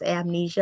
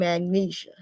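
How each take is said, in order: First: The word is said in its standard form. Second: The word is said in a distorted form. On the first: The speaker calls it right. "It's amnesia. I can say it right if I want to" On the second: The speaker calls it wrong. "I know I said it wrong"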